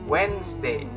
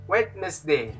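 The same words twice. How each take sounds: First: The D sound is silent. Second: The D sound is pronounced. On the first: The speaker calls it right. "It's like the D is silent" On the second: The speaker calls it wrong. "Most people will say Wednesday. No"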